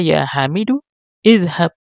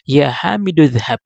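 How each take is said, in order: First: A pause comes before idhab, its first vowel pronounced. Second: The words run together, the first vowel dropped. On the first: "kalau kita kasih jeda" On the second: "kalau kita sambung"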